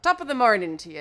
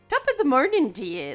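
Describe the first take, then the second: First: It is said at a normal speaking pitch. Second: The pitch pops up into a higher voice. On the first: "It's not" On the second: "they pop the pitch of their voice"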